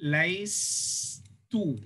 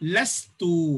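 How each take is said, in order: First: The first syllable has a 'y' glide, 'lay'. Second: The first syllable has no glide, plain 'la'. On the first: This is the underlying form, hard to pronounce. "ஃபால்து கீழே வரும்பொழுது லைஸ் டூன்னு வரும்" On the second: This is the form actually used. "இந்த யாவை கட் பண்ணிடுவாங்க. எப்படி படிப்பாங்க?"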